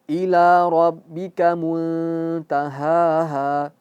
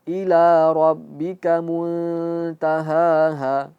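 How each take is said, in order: No difference in how they are said.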